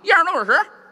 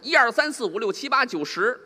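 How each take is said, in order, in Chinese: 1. 数字连成一片，还吞音。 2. 每个数字都读得清楚、完整。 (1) "北京话，" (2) "这是普通话"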